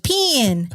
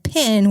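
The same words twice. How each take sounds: First: "pin" drawn out with a Southern twang; "pin" as one exaggerated Southern drawl; mock Alabama pronunciation. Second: "pin" said with a short i; clearly separated "pin"; distinct pronunciation. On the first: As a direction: stretch "pin" into a long "pee-in". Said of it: "It wasn't all just pin". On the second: Shown as a demonstration. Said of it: "pen, pan, and pin were actually three separate words".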